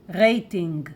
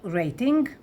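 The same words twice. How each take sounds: First: It is pronounced with a Hebrew accent. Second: It is pronounced with an English accent.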